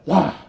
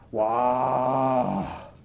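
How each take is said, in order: First: It sounds surprised and caught off guard. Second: It sounds disbelieving, angry or disappointed.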